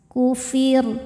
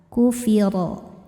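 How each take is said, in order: First: The word ends on a light, thin r. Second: The word ends on a heavy r plus vowel. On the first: The reading stops at this word. "ro-nya disukunkan dan dibaca secara tarkik... Maka ro-nya dibaca tipis" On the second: The reading continues into the next verse. "kalau ro harokatnya fathah, tebal"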